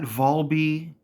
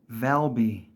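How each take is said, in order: First: The name begins with a 'vol' sound. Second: The name begins with a 'val' sound. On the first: The speaker calls it wrong. "not Volby" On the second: The speaker calls it right. "It's Valby"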